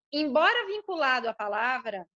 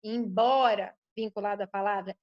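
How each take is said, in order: First: Embora lifted and held; stress on embora. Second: "embora" stretched, pitch dropped; a low weighted "embora"; stress on embora, lower. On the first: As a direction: lean on "embora" before the rest. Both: Shown as a demonstration. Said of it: "esse embora é significativo".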